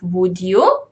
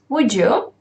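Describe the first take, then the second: First: The d and y are said as separate sounds. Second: The d and y merge into a j sound. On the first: "So here we have would you" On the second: "which becomes"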